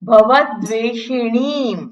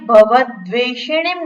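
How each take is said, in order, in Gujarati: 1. 'ni' સિલેબલનો સ્વર દીર્ઘ છે. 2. 'ni' સિલેબલનો સ્વર હ્રસ્વ છે. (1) "એણી દીર્ઘ છે" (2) "ભવદ્વેષિણીમ નથી"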